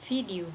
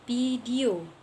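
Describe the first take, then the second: First: Video said fidio with a clear F/V sound; educated pronunciation. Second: Video said as idio, with a P-like or dropped V; uneducated pronunciation. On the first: Student shows the educated way of saying video. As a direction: say video properly with the V. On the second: Student shows the uneducated way of saying video. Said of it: "Seperti contoh, tidak terpelajar". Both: Shown as a demonstration.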